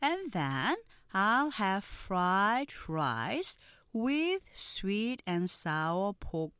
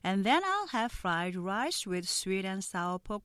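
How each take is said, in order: First: The sentence is read at a slow pace. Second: The sentence is read at a normal pace.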